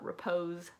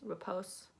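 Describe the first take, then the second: First: The middle consonant is a buzzing z sound. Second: The middle consonant is a hissing s sound. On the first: The speaker calls it wrong. "it's not repose" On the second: The speaker calls it right. "the Z is usually replaced with an S"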